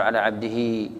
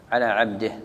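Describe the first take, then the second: First: "عبده" ending in a full vowel, ʕabdihi; wrong voweled stop. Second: "عبده" closed on a still h, ʕabdih, lower; correct pausal stop. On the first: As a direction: let "عبده" run out into -hi at the stop. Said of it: "خطأ". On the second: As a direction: stop "عبده" on the h with no vowel after it. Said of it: "هكذا". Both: Shown as a demonstration.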